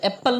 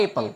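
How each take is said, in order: First: एप्पल with the p held double; wrong double p. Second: एप्पल said as "e-pal" with one short p; don't double the p in एप्पल; correct single p. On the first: Teacher showing the common mistake in apple, wrong double p. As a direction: dwell on the pp in एप्पल. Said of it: "तो एप्पल नहीं होता है". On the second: Teacher modelling apple, correct single p. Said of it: "वो single ही पढ़ते हैं". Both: Shown as a demonstration.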